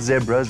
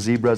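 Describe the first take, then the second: First: Zebras is said with a non-American pronunciation. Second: Zebras is said with an American pronunciation.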